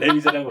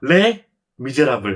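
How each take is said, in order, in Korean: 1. 모든 음절이 끊김 없이 이어집니다. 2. 첫 음절 뒤에 짧게 끊어집니다. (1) "이게 이게 착착 붙거든" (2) "근데 띄어쓰기가 다릅니다"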